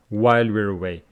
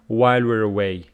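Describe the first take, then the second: First: The w sounds are made with rounded lips. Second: The same.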